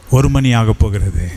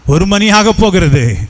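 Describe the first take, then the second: First: Said in the usual way. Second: The hour is almost here, voice lifts; urgent rising repeat. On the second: Acted. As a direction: push the clock line up with growing urgency. Repeated time warning, second take.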